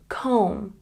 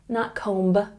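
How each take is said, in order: First: The final B is silent. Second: The final B is pronounced. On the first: The speaker calls it right. "when B comes after the letter M in a word, we don't say it" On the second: The speaker calls it wrong.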